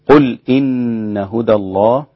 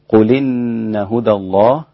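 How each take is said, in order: First: A glottal stop separates qul from inna. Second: Qul runs into inna with no glottal stop. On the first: "هذا الإسكان" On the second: "هذا النقل"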